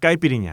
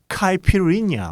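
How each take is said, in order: First: It is said with a Brazilian Portuguese pronunciation. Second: It is said with an American pronunciation. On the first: The speaker calls it right. "브라질 포 발음으로는" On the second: The speaker calls it wrong. "미국 사람들이나 뭐 이런 분들은 이제 카이피리냐 뭐 이렇게 발음을 할 텐데"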